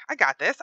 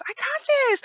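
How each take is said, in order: First: Said in the usual way. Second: Much higher squeak on I got this; squeaky self-pep. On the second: Real, not acted. Player psyching himself up at a jump, squeaky high. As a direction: squeak it out like a nervous cheer.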